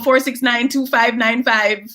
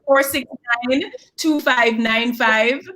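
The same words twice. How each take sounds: First: The number is said fast. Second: The number is said slowly.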